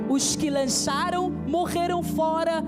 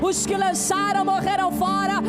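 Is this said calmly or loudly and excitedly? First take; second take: calmly; loudly. First: It is said at a normal, calmer volume. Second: It is said louder and with more excitement.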